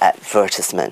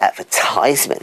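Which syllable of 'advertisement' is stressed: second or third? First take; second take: second; third. First: The stress is on the second syllable. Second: The stress is on the third syllable. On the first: "So the stress is on the second syllable" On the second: "so they put the stress on the third syllable"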